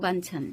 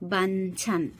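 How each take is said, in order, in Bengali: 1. সিলেবলগুলো এক টানে একসাথে জুড়ে বলা হয়। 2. সিলেবলগুলো আলাদা আলাদাভাবে, একটা একটা করে বলা হয়।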